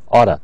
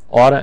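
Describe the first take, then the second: First: The words are reduced and run together. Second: The same.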